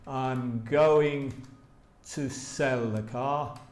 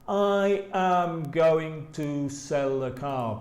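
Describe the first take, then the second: First: I am is contracted into one syllable. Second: I am is said as two full words. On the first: The speaker calls it right. "They say I'm going to sell the car" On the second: The speaker calls it wrong. "normally native speakers don't say that"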